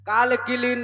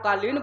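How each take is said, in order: First: The word has an extra inserted syllable. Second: The word is said with two syllables. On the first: The speaker calls it wrong. "नहीं बोला जाता" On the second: The speaker calls it right. "उसको कालीन बोला जाता"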